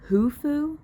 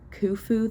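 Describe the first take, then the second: First: The name begins with an H sound. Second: The name begins with a K sound. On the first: "They just pronounce it as an H" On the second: "like they do in the first two books"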